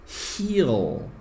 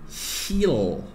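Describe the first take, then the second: The two takes are said the same way.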